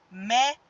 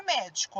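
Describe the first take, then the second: First: "médico" broken into mé, di, co with long pauses; syllable by syllable. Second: Said in the usual way. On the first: Shown as a demonstration. Teacher showing an example to pupils, syllable by syllable. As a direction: sound out "médico" in three separate beats. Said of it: "Olha só". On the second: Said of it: "a palavra médico".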